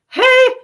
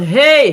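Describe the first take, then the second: First: It is said in a lighter head voice. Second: It is said in a thick chest voice. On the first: "And in head voice" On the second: "This is how you can thicken your cord in M one"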